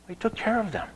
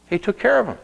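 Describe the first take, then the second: First: He took care of them said softly and higher; tender soft echo; softer, higher repeat. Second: Said in the usual way. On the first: Acted. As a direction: repeat it gently and hushed.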